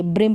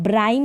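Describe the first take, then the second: First: "ब्रिम" with a short i; correct short vowel. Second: "ब्राइम" with an eye vowel; wrong long vowel. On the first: Teacher giving beginners the right reading, "ब्रिम" with short i. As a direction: say "ब्रिम" to rhyme with him. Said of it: "ब्रिम पढ़ेंगे इसको". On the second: Teacher warning beginners off a wrong reading, "ब्राइम" with eye vowel. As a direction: say "ब्राइम" to rhyme with time. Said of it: "ब्राइम नहीं पढ़ेंगे". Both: Shown as a demonstration.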